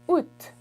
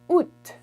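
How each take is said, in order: First: It ends with an audible T sound. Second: It ends with an audible T sound.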